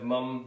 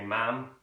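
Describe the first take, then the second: First: Said in the usual way. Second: "ma'am" as short open "mam"; Liverpool pronunciation. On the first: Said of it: "Instead of mum". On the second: Shown as a demonstration. Teacher contrasting with mum, "ma'am" as Scouse "mam". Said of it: "they say ma'am".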